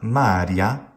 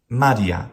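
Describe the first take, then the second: First: The first syllable is drawn out long. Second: All three syllables are short and even. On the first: The speaker calls it wrong. "So definitely not Maria" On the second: The speaker calls it right. "Maria is correct"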